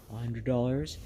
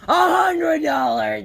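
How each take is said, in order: First: Quiet disbelief. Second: Loud, higher cry of hundred; blurted, furious outcry; outraged shout. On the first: Hearing the window cost. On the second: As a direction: explode at the price. Outraged at window cost. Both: Acted.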